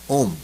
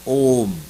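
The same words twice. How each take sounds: First: The vowel is held very briefly. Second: The vowel is held for a long time. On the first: "एक ह्रस्व होता है" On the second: "एक दीर्घ होता है"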